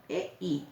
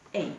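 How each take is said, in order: First: "E I" said as two separate vowels; name "E I" one vowel at a time; vocales por separado. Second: "E I" run together as one quick gliding syllable; diptongo unido. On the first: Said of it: "E es abierta, la I cerrada". ("E I" con cada vocal separada) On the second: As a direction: glide "E I" into a single sound, ei. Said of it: "una vocal más fuerte y otra más débil". ("E I" junto, en una sola sílaba) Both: Shown as a demonstration.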